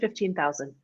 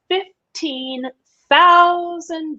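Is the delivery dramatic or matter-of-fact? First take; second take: matter-of-fact; dramatic. First: It is said plainly and matter-of-factly. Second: It is said with exaggerated dramatic effect. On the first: "Just like that. very matter of fact" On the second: "for effect for the audience, that's how I said it"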